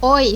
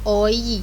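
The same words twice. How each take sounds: First: The two vowels glide smoothly into one sound. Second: The two vowels are said separately with a break. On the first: The speaker calls it right. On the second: The speaker calls it wrong.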